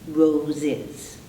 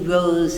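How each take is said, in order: First: The ending adds an extra syllable. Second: The word ends in a buzzing z sound. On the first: The speaker calls it right. "that's why we add this syllable is" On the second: The speaker calls it wrong. "z, kind of choking through that, totally unpronounceable"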